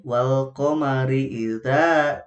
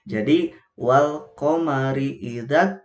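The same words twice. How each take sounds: First: Idza with the alif drawn out long; wrong long reading. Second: Idzat joined straight onto the doubled letter, no lengthening; correct recitation. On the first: Teacher showing the mothers the wrong lengthened reading, slow chant. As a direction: stretch the vowel of idza as the mistake. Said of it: "salah kalau seperti itu". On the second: Teacher showing the mothers the right short reading, slow Quranic chant. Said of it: "gitu ya, tidak seperti ini". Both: Shown as a demonstration.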